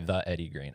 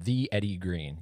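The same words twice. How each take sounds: First: The word 'the' sounds like 'thuh'. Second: The word 'the' sounds like 'thee'. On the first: The speaker calls it wrong. "you wouldn't say the Eddie Green" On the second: The speaker calls it right. "if it starts with a vowel, when you say the, you're supposed to say the"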